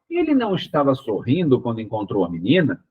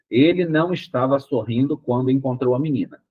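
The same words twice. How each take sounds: First: The question tune is heard from the start. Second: It is said as a plain statement throughout. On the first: It asks a question. "eu tenho que mudar o tom de voz lá no início" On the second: It states a fact. "Ponto. Uma afirmação"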